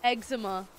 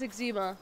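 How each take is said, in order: First: "Eczema" as EG-zuh-muh, stressed at the front; first-syllable stress. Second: "eczema" as ig-ZEE-muh; second-syllable stress. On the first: Streamer compares two pronunciations, "Eczema" said EG-zuh-muh. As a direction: say "Eczema" with a short first e, weak middle. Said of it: "It's eczema". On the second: Streamer insists on her own way, "eczema" said ig-ZEE-muh. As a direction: say "eczema" with a long stressed ee in the middle. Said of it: "I've been calling it eczema". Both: Shown as a demonstration.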